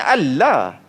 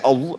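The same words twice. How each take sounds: First: The L is pronounced thin and light. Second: The L is pronounced thick and heavy. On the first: This is the original sound of the word. "Kalau ikut yang sebenar-benar" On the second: This is the optional emphasized form.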